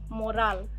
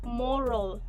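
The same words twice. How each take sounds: First: The second vowel is a full vowel sound. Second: The second vowel is reduced to a schwa. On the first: The speaker calls it wrong. "not moral" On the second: The speaker calls it right. "Here the A is reduced into a schwa sound"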